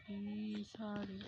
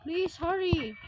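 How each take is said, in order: First: Low, soft urging; quiet plea. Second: Raised, louder urging; urgent plea. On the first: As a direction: plead under your breath. Same plea, now under breath. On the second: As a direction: plead out loud for speed. Urging the game on. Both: Real, not acted.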